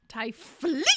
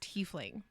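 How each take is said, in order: First: The first syllable sounds like 'tie'. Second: The first syllable does not sound like 'tie'. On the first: This is the pronunciation someone else claimed was correct. "T I E is Thai" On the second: This is the pronunciation usually heard. "That's the only way that I have ever heard it is Tiefling"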